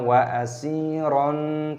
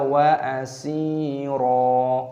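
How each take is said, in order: First: The word ends in an on sound. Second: The word ends in a long a sound. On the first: The speaker calls it wrong. "jangan kita baca wa asiron, tidak boleh" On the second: The speaker calls it right. "Ketika dia berhenti maka dibaca wa asira"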